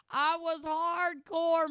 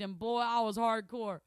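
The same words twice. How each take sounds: First: Louder, higher, slowly stretched "hardcore"; emphatic repeat. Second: Said in the usual way. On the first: Shown as a demonstration. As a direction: punch out "hardcore" slow and big.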